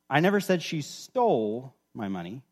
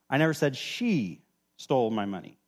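First: The stress is on "stole". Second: The stress is on "she".

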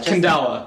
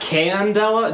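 First: The syllables run together in one smooth flow. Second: The syllables are pronounced separately and distinctly. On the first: The speaker calls it right. "just Candela. It's just one solid flow" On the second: The speaker calls it wrong. "Not Candela"

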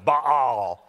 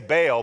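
First: The name is said with a throaty, guttural sound. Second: The name is said plainly, without a throaty sound. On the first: This is how the name is supposed to be said. "Sounds like you know, got a fur ball in your throat" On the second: This is how people usually say the name. "we say Baal"

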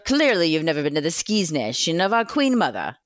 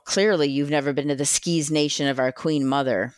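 First: It is read in a put-on British accent. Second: It is read in the speaker's plain accent.

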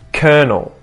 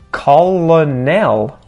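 First: The word sounds like kernel. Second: The word does not sound like kernel. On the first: The speaker calls it right. "We would pronounce this as colonel. Sort of sounds like a kernel of corn" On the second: The speaker calls it wrong. "this is one that screws up a lot of people, even kids learning English, when they see this word and they're like"

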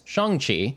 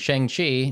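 First: The name is said with Mandarin-like vowels. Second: The name is said with anglicized English vowels. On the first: The speaker calls it right. "now know that it's Shang-Chi. So that's the proper pronunciation" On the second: The speaker calls it wrong. "for all of us out there that were just English speakers going Shang-Chi"

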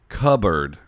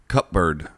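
First: The p sound in the middle is silent. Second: The p sound in the middle is pronounced. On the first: The speaker calls it right. "Should be silent" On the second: The speaker calls it wrong. "How do they mispronounce it?"

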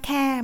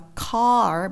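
First: The word ends without an r sound. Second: The word ends with an r sound. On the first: The speaker calls it wrong. "mình lại không đọc là ca ca" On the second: The speaker calls it right. "mà đọc là car bởi vì nó có âm r"

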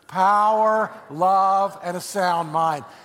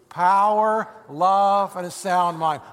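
First: It is said with more energy and passion. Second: It is said in a calm, plain way.

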